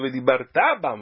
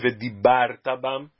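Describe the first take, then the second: First: The stress falls on the last syllable. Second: The stress falls on the second-to-last syllable. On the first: It commands that one will speak about them. The speaker calls it right. "Aqui é uma ordem... Para ser futuro precisa ser oxítona" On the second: It reports that one spoke about them in the past. The speaker calls it wrong. "Se a pessoa lê vedibartá bam. Dibartá é passado"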